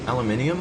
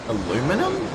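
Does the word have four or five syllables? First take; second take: five; four. First: The word is said with five syllables. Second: The word is said with four syllables. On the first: The speaker calls it right. "I say aluminium" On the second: The speaker calls it wrong. "it says aluminum, but that's wrong"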